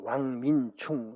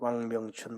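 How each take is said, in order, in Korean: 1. '왕명춘'은 대만 발음으로 읽어요. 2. '왕명춘'은 한국 발음으로 읽어요.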